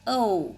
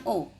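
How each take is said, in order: First: O drawn out as "oh-oo", louder; English gliding O. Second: O as a plain Indonesian "o", no glide; pure vowel O. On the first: Teacher correcting students' letter name, O as English diphthong. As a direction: glide O from "o" towards "oo". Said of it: "Huruf yang diucapkan dengan O". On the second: Teacher showing students what to avoid, O as pure vowel. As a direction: keep O a single unchanging vowel. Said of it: "Bukan O, but O". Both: Shown as a demonstration.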